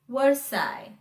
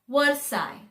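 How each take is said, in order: No difference in how they are said.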